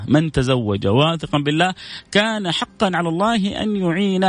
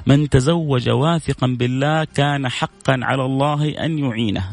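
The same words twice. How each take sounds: First: Said in the usual way. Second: تلاوة متأنية للحديث؛ إلقاء الحديث ببطء ووقار؛ اقرأ الحديث كلمة كلمة بتمهل؛ المذيع يروي حديثا لجمهوره، بإلقاء بطيء ووقور. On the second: Shown as a demonstration. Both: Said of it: "بقول لكم حديث".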